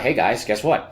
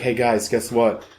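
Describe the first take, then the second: First: It is said in a put-on scientist voice. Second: It is said in his normal voice.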